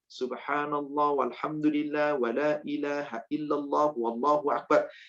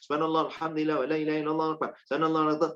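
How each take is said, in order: First: It is recited slowly and carefully. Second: It is recited quickly and hurriedly. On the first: It is recited in the proper measured way. "Jika Bapak Ibu baca dengan tartil" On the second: It is not recited in the proper measured way. "tapi kalau agak cepat ... tapi nggak tartil"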